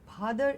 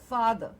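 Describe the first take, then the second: First: The word begins with an aspirated p sound. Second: The word begins with an f sound. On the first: The speaker calls it wrong. "it is not father" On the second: The speaker calls it right. "it is fa, father"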